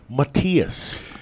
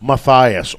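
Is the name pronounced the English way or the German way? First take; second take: German; English. First: The name is said with a German pronunciation. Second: The name is said with an English pronunciation.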